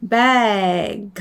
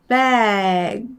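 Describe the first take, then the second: The two takes are said the same way.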